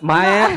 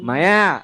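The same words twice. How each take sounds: First: The final vowel is cut off short. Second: The final vowel is long and nasal. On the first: The speaker calls it wrong. "మీరు మాయా అని ఆపేస్తున్నారు, అలా కాదు" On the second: The speaker calls it right. "అది కొంచెం nasal రావాలి and కొంచెం దాన్ని దీర్ఘం తీయాలి"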